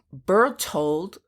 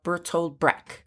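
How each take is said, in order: First: Bertold stumbled as "Perltold"; mispronounced name. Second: Bertold said cleanly as BER-told; corrected name. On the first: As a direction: Bertold fumbled with a blurred l. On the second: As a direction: Bertold Brecht carefully corrected. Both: Real, not acted. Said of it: "uh, embarrassing myself".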